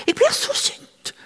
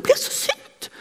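First: High, airy and slow mock-angry complaint; young nurse venting her anger, high and breathy; imitating angry young woman. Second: High, airy mock-angry repeat; same high half-whispered fuming, quicker; young nurse repeating her anger to a friend; imitating angry young woman. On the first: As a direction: stretch it out, pitched way up, half-whispered. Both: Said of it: "sa hun".

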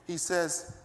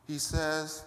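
No difference in how they are said.

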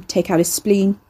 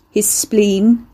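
First: Said in the usual way. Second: Repeated louder. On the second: A narrator's reading. Ricky repeating to a stunned Carrie, louder. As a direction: say it again louder so she hears. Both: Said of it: "Ricky repeated louder".

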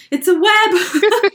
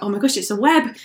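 First: Higher, slow, drawn-out panicked repeat; panicked squeal. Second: Said in the usual way. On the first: Retold or imitated. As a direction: stretch the words out in alarm. Panic on seeing the web.

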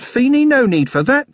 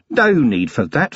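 First: Higher and louder, "no need for that" pressed; insistent. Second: Slow, unhurried restraint; calm. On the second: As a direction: gently wave the violence off. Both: A narrator's reading. Vimes rolled his eyes in mock despair.

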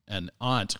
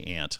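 First: Aunt with a broad ah, like ahnt; British aunt. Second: Aunt with a flat a, like ant; Boston aunt. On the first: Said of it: "it's the word aunt when it's in London". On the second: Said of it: "like a good Bostonian". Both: Shown as a demonstration.

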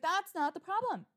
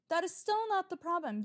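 First: Higher and louder, exasperated; frustrated retort to the dealer; fed-up retort. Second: "still" punched, higher and louder; stress on still. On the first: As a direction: lose your patience on the phone. Retold argument, losing patience. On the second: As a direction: lean hard on "still". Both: Retold or imitated.

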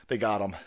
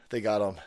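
No difference in how they are said.

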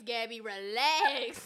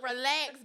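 First: Slow laughing plea. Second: Said in the usual way. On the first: Real, not acted. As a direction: stretch it out while laughing.

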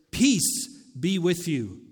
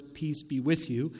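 First: Slow, firm declaration. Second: Said in the usual way. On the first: Acted. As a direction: state it with weight, as a proclamation. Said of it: "he is making a declaration".

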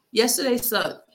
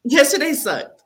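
First: Said in the usual way. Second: Emphatic outburst. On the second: Real, not acted. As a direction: burst out higher and louder on yesterday sucked. Blurts out her real feeling.

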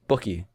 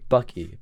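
First: "Bucky" with a rounded, lower vowel, pook-ee; weird Bucky. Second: "Bucky" with a normal short U, buck-ee; plain. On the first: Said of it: "I say it weird". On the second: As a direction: say "Bucky" the standard American way. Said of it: "I do say it weird". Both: Shown as a demonstration.

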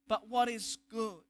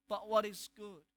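The two takes are said the same way.

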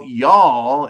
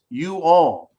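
First: "y'all" run together as one drawn-out syllable; contracted y'all. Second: "you all" slowly, as two separate words; uncontracted you all. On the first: Host explains the Southern contraction, "y'all" slowly as one syllable. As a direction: say "y'all" slowly, as a single word. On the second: Host explains what y'all means, "you all" slowly in two words. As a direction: spell out the contraction, "you" then "all". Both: Shown as a demonstration. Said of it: "It's you all contracted".

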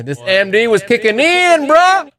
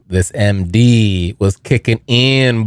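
First: High, rising, hyped repeat; hammed-up high excitement. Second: Said in the usual way. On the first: Telling listeners the MD rush hit, hammed-up high excitement. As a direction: pitch it up like the rush is hitting.

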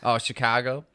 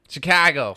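First: Said in the usual way. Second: Loud Chicago accent on "Chicago". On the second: Shown as a demonstration. Co-host trying the city's name, Chicago accent. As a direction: punch it like a Chicagoan. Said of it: "they're talking about Chicago".

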